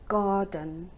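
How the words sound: The r sound in the middle is silent. "but in British English it's garden. It's not heard"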